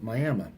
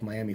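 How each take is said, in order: First: Miami is pronounced the local Oklahoma way. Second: Miami is pronounced as in the Florida city. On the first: "they pronounce it Miami" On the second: "spelled like Miami, Florida"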